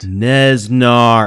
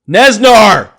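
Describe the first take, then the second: First: The name is said at normal, softer volume. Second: The name is said loudly, with more force.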